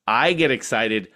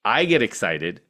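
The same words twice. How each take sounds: The two takes are said the same way.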